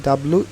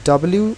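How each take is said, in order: The two takes are said the same way.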